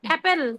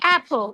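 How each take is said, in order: First: It is said with a Bengali-style pronunciation. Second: It is said with an English-style pronunciation. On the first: The speaker calls it wrong. "আপেল এভাবে বলে?" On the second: The speaker calls it right. "They say অ্যাপল"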